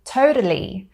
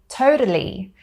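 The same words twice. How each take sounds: First: The middle T is a soft tap. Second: The middle T is a soft tap.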